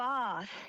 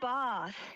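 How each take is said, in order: First: The vowel is a long, broad a. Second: The vowel is a long, broad a.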